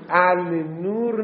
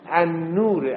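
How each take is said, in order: First: The l of the article is clearly pronounced. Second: The l is silent and the n is doubled. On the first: The speaker calls it wrong. "النور نیستا" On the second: The speaker calls it right. "الف لام تلفظ نمی شود"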